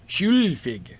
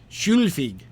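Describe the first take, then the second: Both takes have the same delivery.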